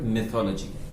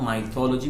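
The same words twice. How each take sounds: First: The first syllable sounds like the word 'myth'. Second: The first syllable does not sound like 'myth'. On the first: The speaker calls it right. "it originates from the word myth" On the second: The speaker calls it wrong. "it is not mythology"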